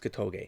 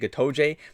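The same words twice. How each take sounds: First: The final g is pronounced hard. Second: The final g is pronounced soft. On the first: The speaker calls it right. "I'm pronouncing two hard G's" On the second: The speaker calls it wrong. "my lapse feels like it's gonna I'm gonna say Gotoge, but no"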